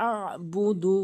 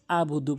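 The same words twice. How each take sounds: First: "আবুদু" slow with ayn squeezed in the throat; pressed ayn. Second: "আবুদু" with a plain smooth a; ayn dropped. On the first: Shown as a demonstration. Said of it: "আইনের উচ্চারণ চাপ দিয়ে". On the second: Retold or imitated. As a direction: say "আবুদু" quickly with no throat catch. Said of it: "আইনটি বাদ দিয়ে".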